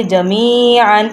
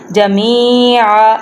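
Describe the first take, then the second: First: Slow "جمیعاً" ending in a sounded "an"; full ending, no stop. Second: Slow "جمیعاً" ending on open "aa", no n; pausal ending. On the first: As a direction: stretch the ee of "جمیعاً" and finish on n. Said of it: "تو ہم پورا حروف ادا کریں گے". ("جمیعاً" پورا، آخر میں نون کے ساتھ) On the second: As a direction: stretch "جمیعاً" and drop the final n for a stop. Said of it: "ایک، ایک زبر پڑھیں گے". ("جمیعاً" وقف میں ایک زبر سے، نون کے بغیر) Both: Shown as a demonstration.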